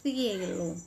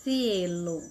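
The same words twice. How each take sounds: First: The first consonant is a lisped th sound. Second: The first consonant is a lisped th sound.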